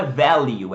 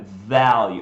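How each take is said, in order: First: Value said wrong, VEL-yoo with a linked L; teacher shows the wrong way to say value. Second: Value said correctly, L kept apart; teacher gives the correct value; right value. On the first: Teacher models the mistake to avoid, loudly. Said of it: "Não é value". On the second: Teacher corrects the mistake, modelling value right. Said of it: "é value". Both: Shown as a demonstration.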